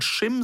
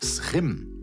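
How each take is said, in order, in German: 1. Es beginnt mit einem deutschen sch-Laut. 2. Es beginnt mit einem niederländischen s-Laut plus Kehllaut. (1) "du kannst sowohl Schim sagen" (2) "Wenn du es ganz korrekt machen willst, ... geht es ins Holländische"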